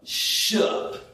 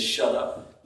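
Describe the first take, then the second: First: "Shut up" squashed into one syllable, 'shup'; "Shut up" run together with the middle dropped; imitated child's pronunciation. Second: Said in the usual way. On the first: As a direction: mimic a little one slurring "Shut up" as 'shup'. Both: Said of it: "That's how she says".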